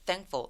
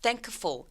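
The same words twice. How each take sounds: First: The K sound is dropped. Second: The K sound is clearly pronounced. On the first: The speaker calls it right. "K 소리가 삭제되는구나" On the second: The speaker calls it wrong. "thankful 이라고 잘 안 할 거고"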